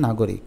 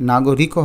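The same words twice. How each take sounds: First: নাগরিক ending on a bare k; no vowel after the k in নাগরিক; three syllables in নাগরিক, na-go-rik; with hasanta. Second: নাগরিকও with a vowel after the k; four syllables in নাগরিকও, na-go-ri-ko; without hasanta. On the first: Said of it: "যদি হসন্ত দিই". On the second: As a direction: end নাগরিকও on "ko". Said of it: "এখনও উচ্চারণটা হয়নি". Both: Shown as a demonstration.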